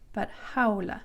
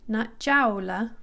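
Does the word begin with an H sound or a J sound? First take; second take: H sound; J sound. First: It begins with an H sound. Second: It begins with an English J sound. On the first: The speaker calls it right. "like an H" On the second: The speaker calls it wrong.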